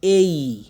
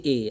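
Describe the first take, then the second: First: A said loud and long as "ey-ee"; A as diphthong. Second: A said wrongly as a short pure "e"; short Bengali "e" for A, no glide; A without glide. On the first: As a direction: stretch A, gliding into "ee". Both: Shown as a demonstration. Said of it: "আমরা এ বলবো না".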